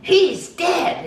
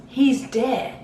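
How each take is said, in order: First: Loud, very high mimicked wail; shrieked-out imitation, far above usual pitch; retold outcry. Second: Higher-pitched mimicked cry, moderate volume; restrained first go at a mimicked cry; retold announcement. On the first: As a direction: imitate a man crying out the bad news. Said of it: "And he goes". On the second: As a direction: lightly imitate a man breaking bad news. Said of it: "this guy looks at him, and he goes".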